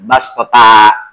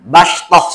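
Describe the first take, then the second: First: The word ends on a long open a vowel. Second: The word ends in a stopped h sound. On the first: The speaker calls it wrong. "jangan bastota" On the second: The speaker calls it right. "bastoh saja"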